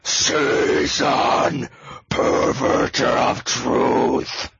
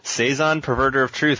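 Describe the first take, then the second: First: It is said in a deep death growl. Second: It is said in a normal speaking voice.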